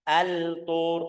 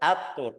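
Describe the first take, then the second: First: The L is clearly pronounced before the T. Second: The L merges into a doubled T sound. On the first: The speaker calls it wrong. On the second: The speaker calls it right.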